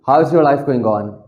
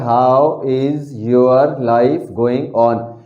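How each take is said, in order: First: The words run together without breaks. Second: Each word is said separately and distinctly. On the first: "जब अंग्रेज बोलेंगे तो वो ऐसे बोलेंगे" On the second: "लिखा हुआ है"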